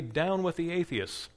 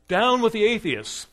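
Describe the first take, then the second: First: Raised, coaxing command voice; proconsul's urging. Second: High, loud shout flung at the crowd; defiant shout. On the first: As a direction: press him to say it, pitched up. Proconsul demands Polycarp renounce. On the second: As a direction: hurl it back at them, pointing. Polycarp turns words on crowd. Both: Acted.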